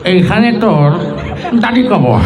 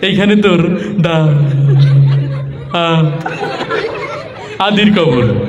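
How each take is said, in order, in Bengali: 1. এটা একজন বুড়ো মানুষের গলায় বলা হচ্ছে। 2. এটা তোতলিয়ে বলা হচ্ছে। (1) "মুরব্বী পান খেতে খেতে আসছে তার মতো" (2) "তোতলা টাইপের... সে এসে আবৃত্তি করছে এইভাবে"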